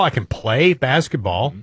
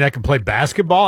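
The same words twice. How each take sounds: First: "play" drawn out for emphasis; stress on play. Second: Said in the usual way. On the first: Shown as a demonstration. Host qualifying his basketball skill, stress held on "play". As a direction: lean slowly on the word "play". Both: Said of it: "Emphasis on play".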